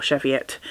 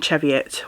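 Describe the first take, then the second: First: Cheviot opening on a soft SH; SH pronunciation. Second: Cheviot opening on a hard CH; CH pronunciation. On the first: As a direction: say Cheviot with SH as in shop. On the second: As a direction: say Cheviot with CH as in cheese. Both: Shown as a demonstration. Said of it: "or Cheviot".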